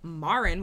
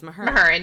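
First: The name is said like Marin. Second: The name is said like Mahurin. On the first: The speaker calls it wrong. "Not like Marin, which is what we said in the first" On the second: The speaker calls it right. "that's how you say her name"

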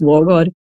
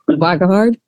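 First: The first vowel sounds like an 'o'. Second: The first vowel sounds like an 'a'. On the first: This is the original Norwegian pronunciation. The speaker calls it right. "the correct pronunciation is" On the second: This is how most people usually say it. The speaker calls it wrong. "usually it's like"

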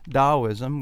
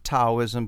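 First: The word begins with a D sound. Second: The word begins with a T sound. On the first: "I think they soften it to a D sound" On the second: "that's T-A-O"

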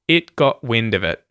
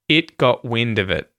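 Both takes have the same delivery.

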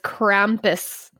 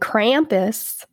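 First: It is said with a German accent. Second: It is said with an American accent. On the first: "That's how you say it in the German accent" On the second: "I'm going to be American"

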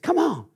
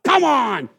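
First: It sounds warm, smiling and inviting. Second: It sounds annoyed and frustrated.

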